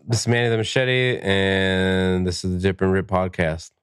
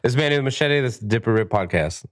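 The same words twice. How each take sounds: First: Unenthusiastic. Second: A bit brighter and more confident. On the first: Real, not acted. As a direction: read it like you don't care. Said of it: "now say it with confidence, like you care". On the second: Pretend. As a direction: lift it like you mean it. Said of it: "No, no, harder than that".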